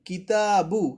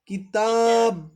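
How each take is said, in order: First: The word ends with a short u vowel. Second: The word ends on the bare b consonant. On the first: The reading continues without stopping. "বা পেশ বু" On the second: The reader stops at this word. "কিন্তু আমরা থামলে কি করব?"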